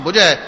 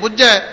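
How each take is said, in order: First: The word is said softly and lightly. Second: The word is said firmly and tightly. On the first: The thirst is quenched. "बहुत पोला उचारण" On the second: One understands. "कस के"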